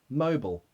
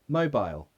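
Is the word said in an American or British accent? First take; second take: American; British. First: It is said in an American accent. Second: It is said in a British accent. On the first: "Americans will say mobile" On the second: "British people say mobile"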